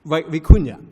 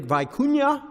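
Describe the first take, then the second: First: Vicuña said vee-KOON-ya, after a false start on Vi; careful retry of Vicuña with a short ee first syllable; corrected pronunciation. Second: Vicuña said as vie-KOO-nya, long i in the first syllable; Vicuña with English vie at the start; mispronounced name. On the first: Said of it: "pronounced properly". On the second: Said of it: "close enough". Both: Real, not acted.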